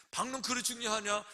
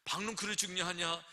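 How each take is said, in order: First: 박농크를 lifted high and hit hard; the preacher pushing 박농크를 up to challenge the listener; stress on 박농크를. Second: Said in the usual way. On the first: Shown as a demonstration. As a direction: press 박농크를 up high, then drop the rest. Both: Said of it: "생각해봐라".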